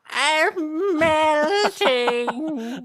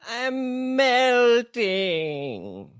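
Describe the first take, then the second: First: A witch-like voice, noticeably shriller. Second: A witch-like voice, less shrill.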